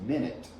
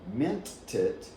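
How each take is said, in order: First: The T is dropped and the words run together. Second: The T is pronounced and the words stay separate. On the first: "what you will probably hear from native speakers is minute" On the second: "So you can say mint it"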